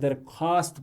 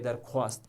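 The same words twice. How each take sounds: First: The w sound after kh is silent. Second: A w sound is heard after kh. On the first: The speaker calls it right. "पढ़ने में आप इसे दरख्वास्त पढ़ेंगे" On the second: The speaker calls it wrong. "ना कि दरख्वास्त"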